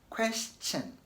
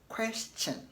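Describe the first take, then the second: The two takes are said the same way.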